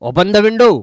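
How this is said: It sounds firm and demanding, like an order. The listener is being told to do it. "तो ये order में चला जाएगा"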